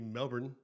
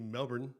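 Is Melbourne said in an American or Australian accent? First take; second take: American; American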